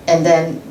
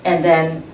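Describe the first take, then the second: No difference in how they are said.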